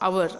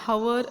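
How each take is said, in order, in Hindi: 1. यह शब्द स्वर ध्वनि से शुरू होता है। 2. यह शब्द h ध्वनि से शुरू होता है। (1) "वी से आर" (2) "आपण हवर नाही म्हणत"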